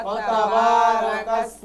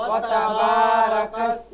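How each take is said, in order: Both takes have the same delivery.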